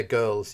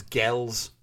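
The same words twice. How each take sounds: First: Said in the usual way. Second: "gels", with a short e and no r; GIRLS said as "gels". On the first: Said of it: "he doesn't say girls". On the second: Shown as a demonstration. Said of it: "he says gels".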